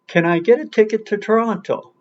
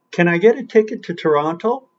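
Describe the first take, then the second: First: "get", "ticket", "Toronto" stressed, higher, ending in a fall; stress demo, falling. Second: "get", "ticket", "Toronto" stressed, ending in a rise; stress demo, rising. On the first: Teacher repeating the demo with a falling tune. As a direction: say it again, landing down on "Toronto". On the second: Teacher modelling sentence stress, question tune. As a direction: ask it, leaning on "get". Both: Shown as a demonstration. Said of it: "Get, ticket, Toronto".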